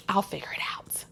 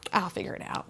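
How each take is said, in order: First: Breathy whisper of giving up on help; unvoiced mutter, shutting others out; whispered resignation. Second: Whispered I'll figure it out, flat and resigned; quiet unvoiced self-talk; whispered resignation. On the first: Retold self-reliant resignation. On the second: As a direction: say it under your breath, alone. Repeated self-reliant resignation.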